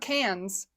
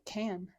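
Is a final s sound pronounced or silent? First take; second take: pronounced; silent. First: The final s sound is pronounced. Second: The final s sound is silent. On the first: The speaker calls it wrong. "not cans" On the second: The speaker calls it right. "it said Cannes, S is silent"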